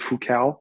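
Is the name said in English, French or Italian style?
English. The name is said with English pronunciation. This is how others in hockey said it. The speaker calls it wrong. "people kept calling me Foucault in English"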